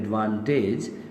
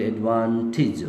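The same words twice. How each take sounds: First: The final syllable has a long 'ej' vowel. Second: The final syllable has a short 'ij' vowel. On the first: The speaker calls it wrong. "rather than advantage" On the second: The speaker calls it right. "pronounce it advantage"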